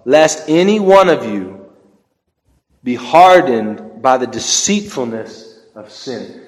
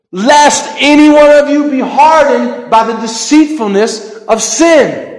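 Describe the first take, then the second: First: Slow, deliberate scripture reading; slow like a snail. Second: Louder, higher, driving scripture quote; fervent preaching. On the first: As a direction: draw each word out slowly. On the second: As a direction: proclaim it with full force. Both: Shown as a demonstration. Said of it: "it is so hard for me to talk slow".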